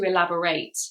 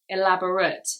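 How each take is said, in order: First: It is said with the verb pronunciation. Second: It is said with the adjective pronunciation. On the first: It means to give more detail. "not to elaborate" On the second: It describes something as very detailed. "The adjective is elaborate"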